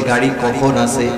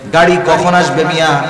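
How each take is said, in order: First: It is asked in a calm, casual way. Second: It is asked in an impatient, hurried way.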